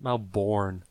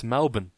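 First: Melbourne as "mel-BORN", full second syllable; Melbourne mispronounced just as it is spelt; mock American pronunciation. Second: Melbourne as "MEL-bin"; Melbourne the Aussie way, ending in "-bn"; Australian pronunciation. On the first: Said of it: "Not Melbourne". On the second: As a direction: say Melbourne with a weak, swallowed second syllable. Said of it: "it's Melbourne". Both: Shown as a demonstration.

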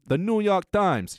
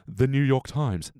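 First: Mock New York accent. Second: Said in the usual way. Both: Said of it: "try it with any publication".

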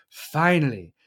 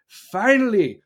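First: Said in the usual way. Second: "Finally" pushed higher and louder with relief; louder relieved finally. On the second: Shown as a demonstration. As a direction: belt out "Finally" like it's about time. Repeated word, second one louder.

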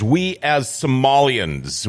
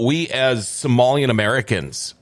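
First: Slow, stretched "We as Somalians"; "Somalians" drawn out pointedly; drawn-out quote. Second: "Americans" added as the pointed contrast; "Somalian Americans" stressed as a counter; pointed correction. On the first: Retold or imitated. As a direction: quote it slowly, dragging out "Somalians". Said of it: "first thing is she starts out is". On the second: Shown as a demonstration. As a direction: offer the correction, landing on "Americans". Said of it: "What about we as Somalian Americans?".

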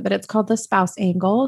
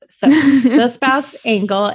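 First: Said in the usual way. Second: "The Spouse Angle" said slow and louder; stress on The Spouse Angle. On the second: Shown as a demonstration. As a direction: stretch out "The Spouse Angle" with weight.

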